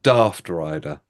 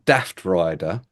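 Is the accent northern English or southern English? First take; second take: southern English; northern English. First: It is said with a southern English accent. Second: It is said with a northern English accent. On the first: "from the south of England" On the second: "If you were from the north of England"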